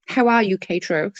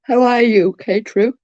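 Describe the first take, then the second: First: Said in the usual way. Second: Words pulled out through a yawn. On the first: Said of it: "Without the yawn". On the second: Real, not acted. Greeting viewer K-True on a livestream mid-yawn. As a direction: greet them in the middle of a big yawn. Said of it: "Sorry for the yawn".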